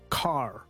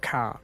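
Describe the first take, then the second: First: It is said with a strong r sound. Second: It is said with no r sound at the end.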